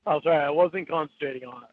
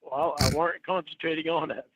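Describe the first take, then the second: First: "wasn't" said properly, not weren't; correct wasn't. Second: "weren't" used in place of wasn't; backwards speech. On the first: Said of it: "There you go, [name]". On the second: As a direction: says "weren't" backwards on purpose. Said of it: "I'm supposed to say it backwards". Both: Real, not acted.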